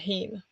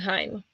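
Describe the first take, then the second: First: The word is pronounced the Norwegian way. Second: The word is pronounced the German way. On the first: "But in Norwegian, you pronounce it Heim" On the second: "In German, you would pronounce it Heim"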